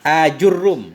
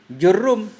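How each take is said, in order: First: The name begins with an initial vowel sound. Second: The name begins directly with a j sound. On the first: "ada hamzahnya" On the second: "kalau dibuang hamzah jadi jurum"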